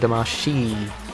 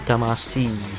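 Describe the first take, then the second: First: The last syllable starts with a sh sound. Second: The last syllable starts with an s sound. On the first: The speaker calls it right. "this game is Katamari Damashi" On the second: The speaker calls it wrong. "not Damasi"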